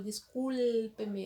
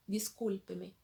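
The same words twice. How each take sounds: First: Discúlpeme with the L held long; discúlpeme stretched on "cul" as a what-not-to-do; exaggerated, marked L. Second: Said in the usual way. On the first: Shown as a demonstration. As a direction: overdo the L in the middle of discúlpeme. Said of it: "eu faço sempre assim, é, é marcado". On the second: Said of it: "a gente fala normal mesmo".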